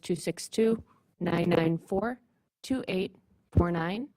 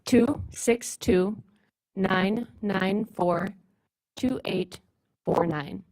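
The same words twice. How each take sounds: First: The number is said at normal speed. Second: The number is said slowly.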